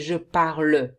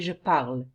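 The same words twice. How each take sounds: First: The final e of parle is sounded. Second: The final e of parle is silent. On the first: The speaker calls it wrong. "You don't say je parle" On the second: The speaker calls it right. "You say je parle"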